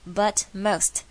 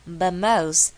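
First: "But most" as separate words, both t's sounded; 完整念出T. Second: "But most" loud, with both t's dropped, "buh mos"; T全部省略. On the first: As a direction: articulate "but" and "most" fully, t's released. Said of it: "你有听到吗". (But most分开念清楚T) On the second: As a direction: drop every t in "but most", projected. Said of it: "T都全部被我省略". (But most大声念，省略所有T) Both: Shown as a demonstration.

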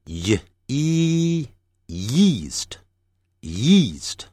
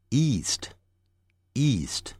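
First: "yeast" built from y plus long e; with y glide. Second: "east" starting straight on long e; without y. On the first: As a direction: start "yeast" on a clear y. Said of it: "y加元音或无y加元音的". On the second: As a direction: say "east" slowly with no y glide. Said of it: "无y加元音的". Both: Shown as a demonstration.

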